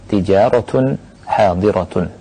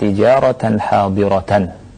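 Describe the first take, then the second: First: The word endings are said with a u-vowel. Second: The word endings are said with an a-vowel. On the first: "membacanya dengan e, dhammah, dengan rafa" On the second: "dengan memfathahkan tijaratan hadiratan"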